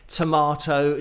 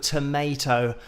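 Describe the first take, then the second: First: It is said with a British pronunciation. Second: It is said with an American pronunciation.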